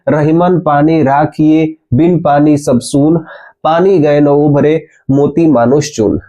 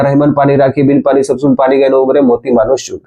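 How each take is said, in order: First: It is recited at a slow pace. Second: It is recited at a fast pace.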